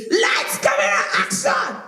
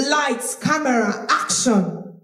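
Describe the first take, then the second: First: Strained shout from the throat; throaty shout. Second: Projected call with a relaxed throat; controlled, supported stage projection; shouting from the stomach. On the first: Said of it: "shout from your throat". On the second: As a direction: project from the belly, throat at ease. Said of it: "I'm shouting, but my throat is intact". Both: Shown as a demonstration.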